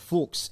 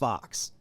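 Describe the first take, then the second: First: It is said the German way, as Fuchs. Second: It is said like the English word fox. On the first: This is the original family pronunciation from Hungary and Germany. "those languages they would say a Fuchs" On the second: This is the Americanized pronunciation. "un-Americanized. So it's just fox"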